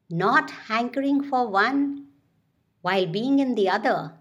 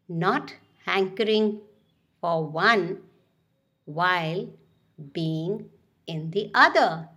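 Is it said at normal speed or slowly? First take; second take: normal speed; slowly. First: It is said at normal speed. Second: It is said slowly.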